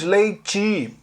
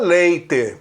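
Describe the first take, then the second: First: The final vowel sounds like 'ee'. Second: The final vowel sounds like 'eh'. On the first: This is how people in the southeast say it. The speaker calls it wrong. "transformamos o E em I" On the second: This is how people in the south say it. The speaker calls it right. "estão pronunciando E, mas com som de E"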